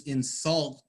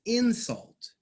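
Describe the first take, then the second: First: In-SULT, stressed on the second syllable; verb stress. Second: IN-sult, first syllable punched and higher; noun stress. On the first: Teacher showing students the verb form, second-syllable stress. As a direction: say insult as a verb, weight on the end. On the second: Teacher showing students the noun form, first-syllable stress. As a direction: say insult as a noun, weight up front. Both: Shown as a demonstration. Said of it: "pronounce these words differently".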